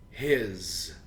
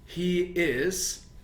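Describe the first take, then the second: First: One syllable ending in a z sound. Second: Both words are said in full.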